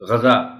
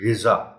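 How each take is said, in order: First: The first vowel is an 'a' sound. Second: The first vowel is an 'i' sound. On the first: The speaker calls it wrong. "ग़ज़ा बोल दिया जाता है या पढ़ दिया जाता है" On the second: The speaker calls it right. "गैन के नीचे ज़ेर है"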